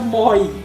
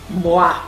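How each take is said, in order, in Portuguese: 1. A palavra soa como moy. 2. A palavra soa como mwa. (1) "Não se pronuncia" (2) "se pronuncia"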